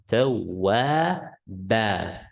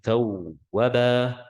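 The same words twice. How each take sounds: First: The vowel is stretched long. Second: The vowel is cut short, not stretched. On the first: The speaker calls it right. "No, tawwaba" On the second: The speaker calls it wrong. "Don't say tawwaba"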